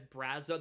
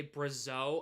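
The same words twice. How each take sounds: First: "Brazo" stressed on the first syllable; correct Brazo. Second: "Brazo" stressed on the second syllable; mispronounced Brazo. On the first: Shown as a demonstration. Streamer showing how it should be said, BRAZ-o for "Brazo". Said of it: "they don't say it as". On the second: Retold or imitated. Streamer quoting how they say it, bruh-ZO for "Brazo". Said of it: "they say Brazo".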